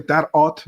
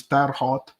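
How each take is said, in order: First: "Terre Haute" with the H dropped, French-style; silent H. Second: "Terre Haute" with the H sounded; H pronounced. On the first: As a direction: say "Haute" starting straight on the vowel. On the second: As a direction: say "Haute" with an audible h at the start. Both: Shown as a demonstration. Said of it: "they don't pronounce the H".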